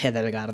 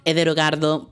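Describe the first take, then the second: First: The name ends on the final consonant. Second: The name ends with an added final vowel. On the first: The speaker calls it right. "es Edelgard" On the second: The speaker calls it wrong. "pues no"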